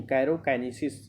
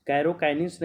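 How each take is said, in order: First: कैरोकाइनेसिस said with -नेसिस at the end, carefully corrected; correct pronunciation. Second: कैरोकाइनिन्स said with -निन्स at the end, as the mistaken form; the wrong version ending in -निन्स; गलत उच्चारण कैरोकाइनिन्स; wrong pronunciation. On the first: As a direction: give the corrected form ending in -नेसिस. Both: Shown as a demonstration. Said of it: "कैरोकाइनिन्स नहीं".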